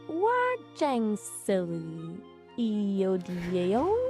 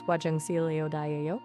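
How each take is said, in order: First: The phrase is said at a very slow pace. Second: The phrase is said at a fast pace. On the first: "Let me slow it way down" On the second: "You gotta speak slower for that one"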